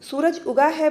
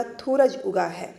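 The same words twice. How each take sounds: First: Said in the usual way. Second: "थूरज" with th in place of s; lisping child demo. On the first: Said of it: "बोलना है". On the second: Shown as a demonstration. Teacher showing students how a lisping child speaks, lisped "थूरज". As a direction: say "थूरज", the opening s turned into a lisped th. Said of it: "तुतलाने में सा को था".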